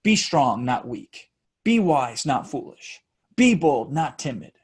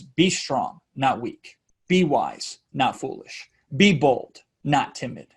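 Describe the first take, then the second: First: Even beat, each line falling at its end; same rhythmic cadence. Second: Even beat, each line falling at its end; rhythmic delivery. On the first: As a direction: repeat the exact same cadence. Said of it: "I can always deliver it with the same type of cadence". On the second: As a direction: chant it in a steady three-part rhythm. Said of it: "deliver it to you so you can hear the rhythm". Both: Shown as a demonstration.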